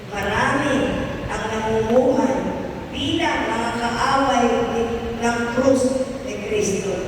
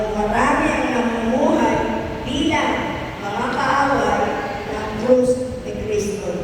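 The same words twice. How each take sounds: No difference in how they are said.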